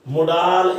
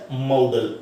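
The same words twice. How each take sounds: First: ਮੁਡਾਲ as mu-DAAL, short first vowel; wrong pronunciation. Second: ਮਾਡਲ as MOW-dul, lower and falling; correct pronunciation. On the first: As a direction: demonstrate the mistake ਮੁਡਾਲ with a drawn-out 'aa'. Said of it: "ਇਸ ਦਾ ਉਚਾਰਨ ਬਿਲਕੁਲ ਵੀ ਨਹੀਂ ਹੈ". (ਮੁਡਾਲ, ਗਲਤ ਉਚਾਰਨ, ਦੂਜੇ ਹਿੱਸੇ ਵਿੱਚ ਲੰਮਾ 'ਆ') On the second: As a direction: demonstrate ਮਾਡਲ with an 'au' diphthong first. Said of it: "ਸੋ ਇਸ ਦਾ ਉਚਾਰਨ ਕੀ ਹੈ?". (ਮਾਡਲ, ਸਹੀ ਉਚਾਰਨ, ਪਹਿਲਾਂ 'ਆਊ' ਧੁਨੀ) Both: Shown as a demonstration.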